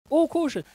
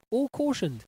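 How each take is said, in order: First: High, loud repeat; indignant. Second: Said in the usual way. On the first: Real, not acted. Host outraged that criminals got off, loud and indignant. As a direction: hammer it home in disbelief.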